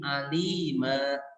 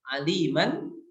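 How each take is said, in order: First: The word ends on a long a vowel. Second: The word ends with an audible n sound. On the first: The reading stops on this word. "ketika dibaca waqaf" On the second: The reading continues into the next word. "ketika dibaca wasol"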